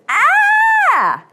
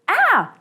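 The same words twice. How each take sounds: First: The scream is at its loudest and most intense. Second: The scream is fairly soft and short.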